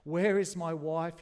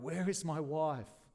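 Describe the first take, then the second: First: Screamed. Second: Slow, urgent cry, half held back. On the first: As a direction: scream it out slowly in terror. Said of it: "he screamed". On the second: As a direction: call out slowly, not yet screaming. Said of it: "Again he cried". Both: A narrator's reading.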